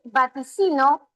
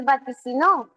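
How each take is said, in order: First: "vaticino" stressed on the third syllable, va-ti-CI-no. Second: "vaticinó" stressed on the last syllable, va-ti-ci-NÓ; stress on final NÓ. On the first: Teacher tests alternative C, stressing va-ti-CI-no. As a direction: put the weight on CI in "vaticino". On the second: Teacher shows C can change, stressing va-ti-ci-NÓ. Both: Shown as a demonstration. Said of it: "distintas formas de pronunciarse".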